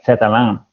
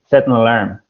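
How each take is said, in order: First: No n sound is heard before 'alarm'. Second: A clear n sound is heard before 'alarm'. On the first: The speaker calls it wrong. "what you said is like set alarm. So that's not right" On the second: The speaker calls it right. "It's set an alarm"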